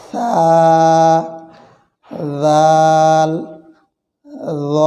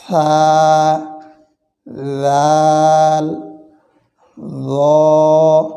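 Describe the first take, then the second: No difference in how they are said.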